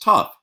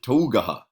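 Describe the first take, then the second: First: It is said as one short syllable, tuf. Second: Every letter is sounded out in several syllables. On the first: The speaker calls it right. "It's pronounced tough" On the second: The speaker calls it wrong. "you don't pronounce it Tougaha"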